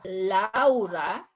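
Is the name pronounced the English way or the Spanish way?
Spanish. The vowels are pronounced Spanish-style. The speaker calls it right. "it's Laura"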